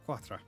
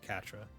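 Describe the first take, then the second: First: The name begins with a 'kw' sound. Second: The name begins with a plain 'k' sound. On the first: "I go Quatra because like I see the Q U A and I just go I have to make the qua sound" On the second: "it's supposed to be Catra"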